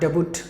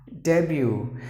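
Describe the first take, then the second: First: The final T is pronounced. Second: The final T is silent. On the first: The speaker calls it wrong. "Not debut, no" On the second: The speaker calls it right. "the letter T is silent"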